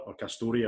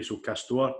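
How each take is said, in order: First: Castore said "KAS-tor-ee", ending on a clear "ee"; second pronunciation. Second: Castore with the ending swallowed, rising at the end; first pronunciation. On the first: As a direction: Castore with an extra "ee" sound at the end. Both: Shown as a demonstration. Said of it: "or however you want to call it".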